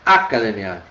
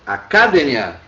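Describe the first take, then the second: First: The stress is on the fourth-to-last syllable. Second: The stress is on the third-to-last syllable. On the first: "também ela deve ser uma sobresdrúcula" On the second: "deveria estar acentuado se ela fosse uma proparoxítona"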